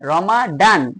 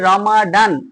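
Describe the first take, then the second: The two takes are said the same way.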